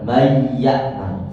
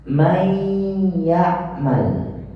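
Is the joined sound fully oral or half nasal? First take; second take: fully oral; half nasal. First: The merged sound is fully oral, without nasality. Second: The merged sound is half nasal, half oral. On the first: The speaker calls it wrong. "salah. Artinya itu full, pure dari lisan" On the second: The speaker calls it right. "Jadi ada suara khayshum setengah, suara lisan setengah"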